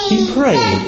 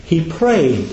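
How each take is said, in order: First: He prayed thrown up high, falling to prayed; emphatic repeat. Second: Said in the usual way. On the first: Shown as a demonstration. Preacher driving home that Jesus prayed, high emphatic repeat. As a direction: hit He high and let prayed drop.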